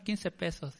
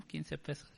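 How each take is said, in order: First: Said in the usual way. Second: A hushed echo of the price; soft disbelieving echo. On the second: Retold or imitated. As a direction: repeat the price much softer, under your breath. Speaker echoes the price back.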